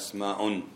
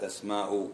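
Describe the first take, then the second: First: The word ends with an added n sound. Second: The word ends without an added n sound. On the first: It is the plural of the word for name. "منون" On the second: It is a woman's name. "ما تقول اسماء اسماء"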